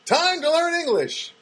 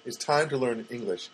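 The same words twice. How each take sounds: First: High, drawn-out title call; slow, raised mock-announcer delivery; show title announcement. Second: Said in the usual way. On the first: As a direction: proclaim it like a reality show name. Proclaims his reality show title.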